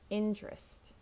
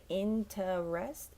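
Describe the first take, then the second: First: It is said with two syllables, like intrest. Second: It is said with three full syllables. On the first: The speaker calls it right. "it's just tra" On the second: The speaker calls it wrong. "we usually don't say interest"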